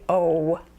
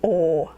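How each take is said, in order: First: The vowel ends with a w glide. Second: The vowel stays pure with no w glide. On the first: The speaker sounds like most Americans. "the rest of us say O" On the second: The speaker sounds like they are from Minnesota. "People in Minnesota say O"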